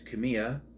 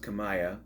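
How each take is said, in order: First: The middle syllable sounds like 'me'. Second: The middle syllable sounds like 'my'. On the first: "It's Kamiya" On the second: "sometimes it's pronounced Kamaya"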